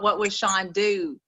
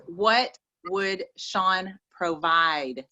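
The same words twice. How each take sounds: First: Said in the usual way. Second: "What would Sean provide?" said very slowly, with weight on each word; slow, stressed correction. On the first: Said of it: "It's not". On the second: Shown as a demonstration. Coach handing callers the right question, slow and stressed. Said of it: "It is".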